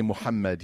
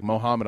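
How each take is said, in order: First: "Muhammad" with full Arabic sounds, stress on HAM; Arabic pronunciation. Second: "Mohammed" said the American way, mo-HAM-ed; anglicized Mohammed. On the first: Shown as a demonstration. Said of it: "You can say Muhammad here". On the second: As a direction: flatten "Mohammed" into English sounds. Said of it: "Not here. You don't have to do that here".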